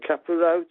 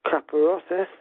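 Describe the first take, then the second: First: It is said with a Black Country pronunciation. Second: It is said with a Spanish pronunciation.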